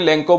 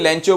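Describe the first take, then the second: First: The middle consonant is a 'k' sound. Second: The middle consonant is a 'ch' sound. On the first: "लेंको बोले" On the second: "आप इसे लेंचो बोले"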